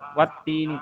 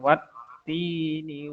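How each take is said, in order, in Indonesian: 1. Bunyi t pendek dan langsung lanjut. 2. Bunyi t ditekan dan ditahan sebentar. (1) "jangan langsung wat ini" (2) "Ditekan ya. Wat ti kasih jeda"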